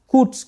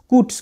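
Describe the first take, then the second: No difference in how they are said.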